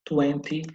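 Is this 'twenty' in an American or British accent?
British. It is said with a British accent. "no inglês britânico ou da Inglaterra"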